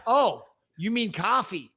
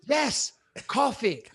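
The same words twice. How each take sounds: First: Slow imitation of an American server; American accent. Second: "coffee" with a short, rounded British vowel; exasperated, slow British "coffee", pitched high; British pronunciation. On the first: Drive-thru server finally understanding the order, American accent. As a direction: say "coffee" with an open American vowel. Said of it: "a slight American twang". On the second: Retold or imitated. Customer confirming his order to the server, exasperated British accent.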